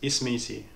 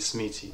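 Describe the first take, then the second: First: The word begins with a clear i vowel. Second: The word begins directly with the s sound. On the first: This is the form to use when speaking with Tunisians. "prononcez bien le i" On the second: This is the form used among Moroccans. "entre Marocains on dit smiti"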